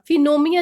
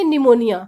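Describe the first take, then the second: First: The word begins with a p sound. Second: The word begins directly with an n sound. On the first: The speaker calls it wrong. "फिनोमिया नहीं बोलेंगे" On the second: The speaker calls it right. "इसको हम बोलेंगे निमोनिया"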